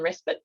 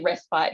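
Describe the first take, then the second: First: Respite is pronounced a non-Australian way. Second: Respite is pronounced the usual Australian way. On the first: This is the usage elsewhere. "rather than respite" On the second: This is the local usage. "we tend to say respite here"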